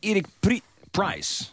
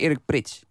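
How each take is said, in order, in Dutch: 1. De achternaam eindigt op een 'ice'-klank. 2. De achternaam eindigt op een 'its'-klank. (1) "niet Price" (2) "Het is Prits, hoor"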